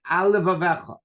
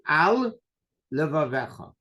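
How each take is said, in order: First: One l sound is shared by both words. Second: Each word keeps its own l sound. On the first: The speaker calls it wrong. "They make the lamed for both words. That's no good" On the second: The speaker calls it right. "You have to say"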